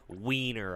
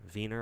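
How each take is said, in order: First: The word begins with a W sound. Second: The word begins with a V sound.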